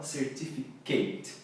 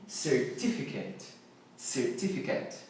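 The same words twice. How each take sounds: First: "certificate" ending in a long KATE; wrong pronunciation. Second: "certificate" as ser-TIF-i-ket, softly spoken; soft "certificate" with a short final KET; correct pronunciation. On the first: Teacher shows what to avoid, "certificate" mispronounced ending KATE. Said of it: "E não". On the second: Teacher models it for learners, "certificate" softly ending in KET. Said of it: "E não certificate". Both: Shown as a demonstration.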